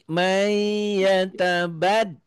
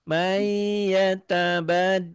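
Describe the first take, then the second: Both takes have the same delivery.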